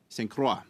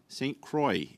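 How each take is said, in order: First: The name is pronounced the French way. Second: The name is pronounced the English way. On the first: It is how outsiders say the name. The speaker calls it wrong. "that is not correct" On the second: It is how locals say the name. The speaker calls it right. "It is Saint Croix uh, in my in my area"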